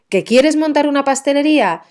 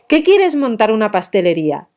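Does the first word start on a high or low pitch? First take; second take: low; high. First: The first word starts on a low pitch. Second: The first word starts on a high pitch. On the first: "fíjate que el que empieza abajo" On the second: "si ese que estuviera acentuado"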